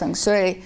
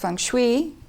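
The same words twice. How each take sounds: First: The second word sounds like 'sui', lips unspread. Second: The second word is said the common UK way. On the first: "it's actually feng shui, like sui, you're not supposed to sm smile" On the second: This is how most people in the United Kingdom say it. "is how most people in the United Kingdom say it"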